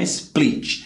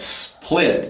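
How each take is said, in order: First: The vowel is a tense I sound. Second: The vowel is pulled toward an E sound. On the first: The speaker calls it wrong. "não é split" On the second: The speaker calls it right. "Esse I vai ter o som puxado para o E, nunca som de I"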